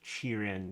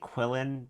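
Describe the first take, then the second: First: The word begins with a 'ch' sound. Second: The word begins with a 'kw' sound. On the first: The speaker calls it right. "I'm pretty sure it's Chirin" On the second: The speaker calls it wrong. "I've been saying Quillin, but that's wrong"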